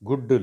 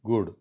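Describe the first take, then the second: First: The first vowel is short before a doubled consonant. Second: The first vowel is long before a single consonant. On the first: The speaker calls it wrong. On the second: The speaker calls it right.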